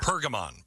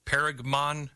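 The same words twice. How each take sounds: First: "Pergamon" with PUR as first syllable, falling; corrected pronunciation. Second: "Pergamon" tried with PAIR as first syllable; unsure pronunciation. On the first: Host echoing guest's correction, "Pergamon" settled as PUR-guh-mon. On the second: Host asking guest how to say it, "Pergamon" tentatively as PAIR-guh-mon. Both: Shown as a demonstration. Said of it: "How do you say it?".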